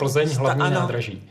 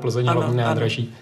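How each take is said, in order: First: It is spoken as a standalone announced heading. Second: It is spoken flowing inside a longer sentence. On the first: The train is arriving at this station. "Název, když jako nadpis" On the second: The station is named as a train's direction. "jiná ano, vlastně slovní dikce, než když říkáte ve směru"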